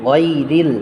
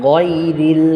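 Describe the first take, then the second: Both takes have the same delivery.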